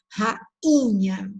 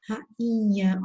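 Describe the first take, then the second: First: Rainha again with nose wrinkled, nasal a before nh; nasal demo word. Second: Rainha with the nh nasalizing the a; nasal demo word. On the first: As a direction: show the nasal sound in Rainha. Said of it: "ó, viram?". (Rainha com o nariz franzido, nasalizando) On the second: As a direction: let Rainha go through the nose on the nh. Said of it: "ó o nariz, ó, até enruguei". (Rainha bem nasalizada, pelo nariz) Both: Shown as a demonstration.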